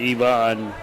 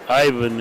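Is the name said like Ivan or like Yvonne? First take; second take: Yvonne; Ivan. First: The name is said as ee-VON. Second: The name is said as EYE-van. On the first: The speaker calls it wrong. "instead of Yvonne" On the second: The speaker calls it right. "we might say uh, Ivan"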